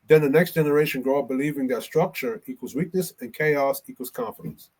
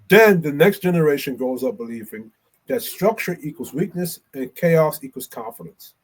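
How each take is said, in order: First: It is read fast. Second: It is read slowly.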